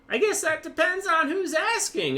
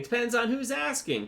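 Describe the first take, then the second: First: It is said in a put-on high voice. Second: It is said in his normal voice.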